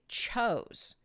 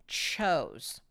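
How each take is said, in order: No difference in how they are said.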